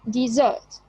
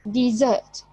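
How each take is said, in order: First: The stress is on the second syllable. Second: The stress is on the second syllable.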